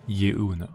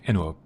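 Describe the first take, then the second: First: The name begins with a 'you' sound. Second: The name begins with an 'eh' sound. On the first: The speaker calls it wrong. "Not Yuno" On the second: The speaker calls it right. "that's how you pronounce it"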